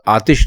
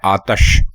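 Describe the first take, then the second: First: The second vowel is an 'i' sound. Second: The second vowel is a short 'a' sound. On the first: This is the popular form everyone uses. The speaker calls it wrong. "असल में ये लफ्ज आतिश नहीं है" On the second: This is the original Persian form. The speaker calls it right. "ये लफ्ज है आतश। जो सही मानों में जो लफ्ज है वो आतश है"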